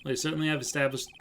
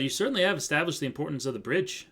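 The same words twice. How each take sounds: First: Said in the usual way. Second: Put-on wandering Canadian accent, near Australian; attempted Canadian accent. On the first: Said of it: "hey there, bud". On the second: Judge addressing the court in wobbly Canadian accent. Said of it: "Now he sounds Australian".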